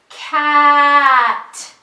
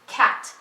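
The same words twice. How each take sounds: First: The word is drawn out slowly. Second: The word is said quickly. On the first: "say it slowly first like this" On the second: "ask them to say it fast"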